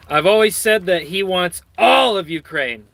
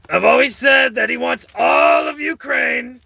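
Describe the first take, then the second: First: Said in the usual way. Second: Trump impression. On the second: Vlogger showing off his Trump impression, shouting hoarsely. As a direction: bellow it like Trump with a sore throat. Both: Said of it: "That's my Trump, uh, impersonation".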